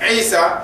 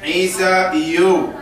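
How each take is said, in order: First: The name ends on its plain final vowel. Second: The name ends with an added case ending. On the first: The speaker calls it right. "that's it" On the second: The speaker calls it wrong. "We don't say"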